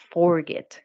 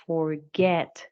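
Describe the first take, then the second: First: Forget stressed on the first syllable, FOR-get; wrong stress. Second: Forget stressed on the second syllable, for-GET; correct stress. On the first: Teacher showing the mistaken stress on forget. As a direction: put the weight on FOR in forget, the wrong way. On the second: Teacher demonstrating the right stress on forget. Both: Shown as a demonstration. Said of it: "You have forget, not forget".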